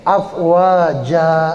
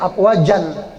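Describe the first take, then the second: First: The word ends with a plain vowel. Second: The word ends with an n sound. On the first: The reader stops at this word. "karena kita berhenti afwaja, fathah biasa" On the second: This is the full written form with tanwin. "tulisannya afwajan, fathah tanwin"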